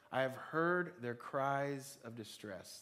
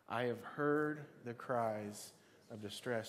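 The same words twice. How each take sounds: First: Slow, deliberate, each word weighed; slow emphatic reading. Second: Slow, drawn-out group recital; slow unison recital. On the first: Preacher slowly reading a verse for the congregation. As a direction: read it slowly for them to repeat. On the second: Preacher reciting the verse together with the congregation, slow. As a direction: lead them through it slowly. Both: Shown as a demonstration. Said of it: "Let's say that together".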